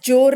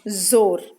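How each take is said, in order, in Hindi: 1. शब्द एक सादे j की आवाज़ से शुरू होता है। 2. शब्द एक गूँजती हुई z की आवाज़ से शुरू होता है। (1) "जोर नहीं बोलेंगे आप" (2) "इसे बोलेंगे जोर"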